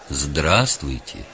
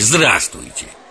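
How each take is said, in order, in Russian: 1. Произносится мягко и спокойно. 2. Произносится быстро и пренебрежительно. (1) "Мягко и спокойно" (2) "Скороговоркой из подтекста, мах, отстаньте"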